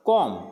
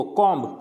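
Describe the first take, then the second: First: कॉम ending on M, no B; silent B. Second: कॉम्ब with a voiced B at the end; wrong pronunciation. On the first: Teacher models it for students, कॉम with the B silent. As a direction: close कॉम on a hummed M. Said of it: "इसको बोलना है कॉम". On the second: Teacher shows the common mistake, कॉम्ब ending "mb". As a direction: sound the final B in कॉम्ब. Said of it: "कॉम्ब नहीं होता है". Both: Shown as a demonstration.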